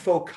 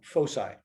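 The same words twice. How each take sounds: First: The c is said with a K sound. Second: The c is said with an S sound.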